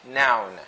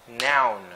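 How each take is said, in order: The two takes are said the same way.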